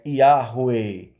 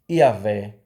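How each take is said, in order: First: The h is a rough r and w sounds like u. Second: The h is silent and w sounds like v. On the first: The speaker calls it right. "Então a pronúncia é Yahweh" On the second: The speaker calls it wrong. "infelizmente, como Iavé"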